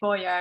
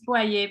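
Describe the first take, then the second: First: The name is said with an English pronunciation. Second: The name is said with a French pronunciation. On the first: "most people say Boyer in the U K" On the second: "in French it's Boyer"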